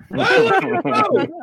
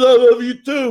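First: High, tearful mock blubber on the line; mock weeping. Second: A louder, lightly voiced Rocky reply. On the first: Host recalls crying at Rocky, high mock tearful. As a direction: quote it like a grown man caught crying, higher. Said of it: "I was weeping". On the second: Retelling the end of Rocky, louder hint of Rocky. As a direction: toss off a hint of Rocky Balboa. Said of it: "And Rocky says".

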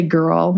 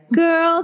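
First: Said in the usual way. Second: Put-on high New York toddler calling out Girl; much higher New York accent on Girl; New York kid. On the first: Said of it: "I'd just say". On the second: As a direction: call Girl in a little New York child's voice. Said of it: "'Cause I had such a New York accent".

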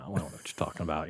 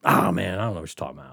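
First: Faster and softer, brushing it off; hushed mock denial. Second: Mock innocent denial. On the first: Repeating the denial to Cookie, quick and hushed. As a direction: repeat the denial quickly under your breath. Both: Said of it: "And I'm like".

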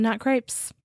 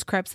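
First: Crepes said as "krayps"; long-vowel pronunciation. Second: Crepes said as "kreps"; short-vowel pronunciation. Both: Shown as a demonstration. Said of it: "it was crepes and not crepes".

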